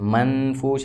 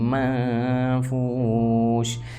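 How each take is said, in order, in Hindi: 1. n ध्वनि साफ़ बोली जाती है। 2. n ध्वनि छिपी हुई और नासिक्य होती है। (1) "ऐसे नहीं" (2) "यहाँ पर इख्फा होगा"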